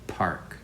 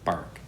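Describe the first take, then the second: First: The first sound is a P with air. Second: The first sound is a B without air. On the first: The speaker calls it right. "Say Park" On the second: The speaker calls it wrong. "Don't say it as Bark"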